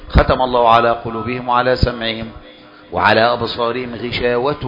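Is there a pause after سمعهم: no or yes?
yes. There is a pause after سمعهم. The seal is on hearts and hearing; the covering is on sight. The speaker calls it right. "يبقى تفصل"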